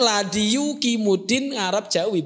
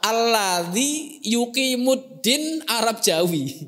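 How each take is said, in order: First: The phrase is pronounced with Javanese sounds. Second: The phrase is pronounced with Arabic sounds. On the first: Local readers misread it from the transliteration. The speaker calls it wrong. "lidahnya kan lidah Jawa" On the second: This is how the original language says it. The speaker calls it right.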